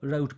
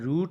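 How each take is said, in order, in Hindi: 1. स्वर 'cow' के 'ow' जैसा सुनाई देता है। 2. स्वर 'boot' के 'oo' जैसा सुनाई देता है। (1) "अमेरिकन इसको राउट पढ़ते हैं" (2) "ये है रूट"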